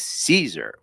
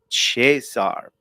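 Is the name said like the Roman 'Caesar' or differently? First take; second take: Roman Caesar; differently. First: The name sounds like the Roman emperor's name. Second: The name is not said like the emperor's name. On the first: The speaker calls it wrong. "she mispronounces his name, ... she just assumes that his name is Caesar" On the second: The speaker calls it right. "But it's Cesar Borgia"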